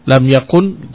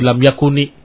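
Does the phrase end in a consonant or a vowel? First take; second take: consonant; vowel. First: The phrase ends in a bare consonant. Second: The phrase ends with an added i vowel. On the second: "jadi lam yakuni. Dia kasrah"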